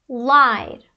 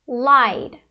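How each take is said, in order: Both takes have the same delivery.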